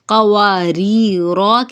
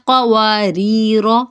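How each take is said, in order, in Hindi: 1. अंतिम स्वर लंबा खींचा जाता है। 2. अंतिम स्वर छोटा रखा जाता है। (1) "की जगह" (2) "हरकत को लंबा नहीं करेंगे"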